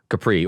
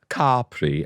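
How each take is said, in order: First: Capri is said with an English pronunciation. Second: Capri is said with an Italian pronunciation.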